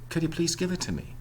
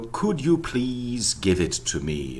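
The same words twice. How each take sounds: First: The function words are reduced to weak vowels. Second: The function words keep their full vowels. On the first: The speaker calls it right. "You would say" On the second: The speaker calls it wrong. "No, you wouldn't say that"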